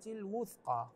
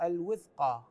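First: The w sound is followed by a 'u' vowel. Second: The w sound is followed by an 'i' vowel. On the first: The speaker calls it right. "فقد استمسك بالعروة الوثقى هكذا" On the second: The speaker calls it wrong. "فبعضهم يقرأها بالكسر الوثقى، هذا مو صحيح"

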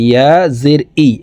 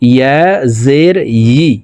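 First: The final vowel starts with a glottal catch. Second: The final vowel starts with a y-glide. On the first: The speaker calls it wrong. "ইয়ার উচ্চারণ হামজার উচ্চারণ করে থাকি, ইয়া জের ই এভাবে পড়ে থাকি" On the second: The speaker calls it right. "ইয়ার উচ্চারণ জিহ্বার মধ্যখান থেকে পড়তে হবে। দেখুন"

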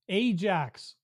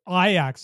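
First: The name is said the local Canadian way. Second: The name is said the European way.

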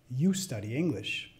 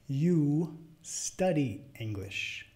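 First: It is spoken at natural fast speed. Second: It is spoken fairly slowly. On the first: "al final las voy a decir como las diría a otro hablante nativo" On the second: "La primera vez media lento"

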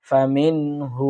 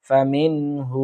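The two takes are said the same way.

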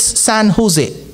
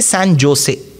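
First: Jose begins with an H sound. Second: Jose begins with a J sound. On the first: The name is said the way its own language says it. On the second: Every letter is read as it is spelled. "for a person who respects every letter of the English language, he will say San Jose"

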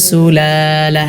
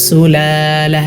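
No difference in how they are said.

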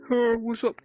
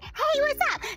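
First: It is said in a plain, low voice. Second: It is said in a cute, high-pitched voice.

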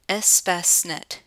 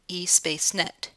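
First: The name is said as 'espace-net'. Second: The name is said as 'e-space-net'. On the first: The speaker calls it right. "it's actually pronounced Espacenet" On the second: The speaker calls it wrong. "not eSpaceNet"

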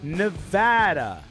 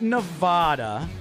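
First: The middle A is said as a hard A. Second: The middle A is said as a soft A. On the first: The speaker calls it right. "It is Nevada. It's a hard A" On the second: The speaker calls it wrong. "Not Nevada. ... not a soft A"

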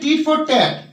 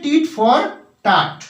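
First: The vowel in 'tat' is like in 'cat'. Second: The vowel in 'tat' is like in 'father'. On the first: The speaker calls it wrong. "আমরা এটা বলে থাকি tit for ট্যাট, কিন্তু আসলে এর উচ্চারণটা ট্যাট নয়" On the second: The speaker calls it right. "এটার উচ্চারণটা হচ্ছে টিট ফর টাট"

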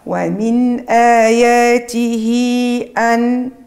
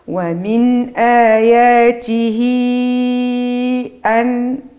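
First: The final vowel of آياته is held short. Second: The final vowel of آياته is held medium-long. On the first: "هذا القصر" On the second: "التوسط"

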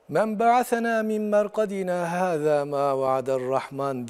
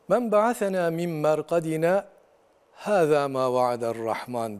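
First: There is no pause after merkadina. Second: There is a brief pause after merkadina. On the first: Who raised us from this grave? The Merciful promised nothing. The speaker calls it wrong. "sekte yapmadan geçersek" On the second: Who raised us from our graves? This is what the Merciful promised. The speaker calls it right. "Biz orada sekte yapıyoruz"

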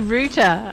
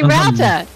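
First: The first vowel sounds like the word 'root'. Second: The first vowel does not sound like 'root'. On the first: This is how people in the UK say it. "in the UK, they say router" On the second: This is how the speaker's own community says it. "we say router"

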